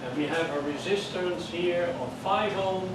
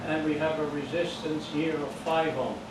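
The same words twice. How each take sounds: The two takes are said the same way.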